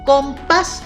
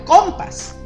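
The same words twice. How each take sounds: First: The stress is on the second syllable. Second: The stress is on the first syllable. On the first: The speaker calls it right. "porque el acento está en la A" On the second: The speaker calls it wrong. "Si yo le pongo el acento en la O"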